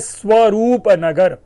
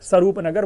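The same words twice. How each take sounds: First: The name is said in full, all sounds. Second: The name is shortened, a sound dropped. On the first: "Delhi में जगह है स्वरूप नगर" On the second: "स्वरूप नगर बोल गए"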